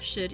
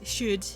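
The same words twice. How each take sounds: First: The vowel is said without extra lip rounding. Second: The vowel is said with strongly rounded lips.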